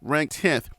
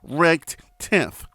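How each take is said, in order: First: It is said at a quick pace. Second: It is said more slowly.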